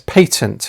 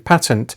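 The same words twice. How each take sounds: First: It uses the common British pronunciation. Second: It uses the pronunciation thought to be American. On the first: "more commonly pronounced, at least in other contexts, as patent in the U K" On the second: "many British people consider the pronunciation patent to be an Americanism"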